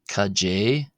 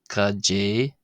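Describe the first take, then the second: The two takes are said the same way.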